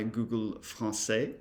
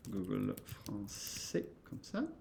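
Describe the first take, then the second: First: Said in the usual way. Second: Google Français said the French way, with a uvular r, slowly; teacher demonstrating the French name, said slowly in French; French pronunciation. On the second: Shown as a demonstration. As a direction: say Google Français as a French speaker would, then comme ça.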